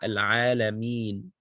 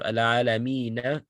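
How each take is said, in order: First: The word ends on a bare n sound. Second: The word ends with a short vowel after n. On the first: The reader stops on this word. "when you stop on a word, the last letter takes sukun" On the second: The reading continues without stopping. "What does the noon originally have? ... Fatha"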